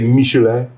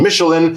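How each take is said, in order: First: The name is said with a French pronunciation. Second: The name is said with an English pronunciation. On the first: "I think the French would say Michelin" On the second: "we're going to go with the English pronuncia- pronunciation Michelin"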